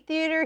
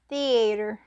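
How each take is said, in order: First: The word is said in a plain, non-Southern way. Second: The word is said in a Southern US way. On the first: "I say theater" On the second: "a funny Southern way"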